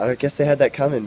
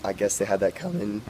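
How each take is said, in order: First: Said in the usual way. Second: Real crack in the voice on coming. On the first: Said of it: "coming, I'm sorry". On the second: Real, not acted. Reporter tired from a long day at work, voice crack. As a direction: let the voice break at the end. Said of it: "voice crack".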